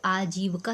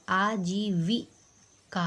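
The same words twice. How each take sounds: First: आजीविका said "aa-jeev-kaa", no i after v; wrong vowel demo. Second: Slow आजीविका, "aa-jee-vi ... kaa"; correct vowel demo. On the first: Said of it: "आजीविका थोड़ी होता है". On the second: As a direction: sound a clear vi in आजीविका. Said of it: "आजीविका होता है". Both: Shown as a demonstration.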